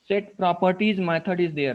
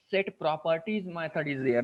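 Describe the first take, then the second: First: Properties said louder, the whole line pushed out; stress on properties. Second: Said in the usual way. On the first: Shown as a demonstration. Teacher repeating a point to students, properties said louder. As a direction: lean on properties as you repeat it.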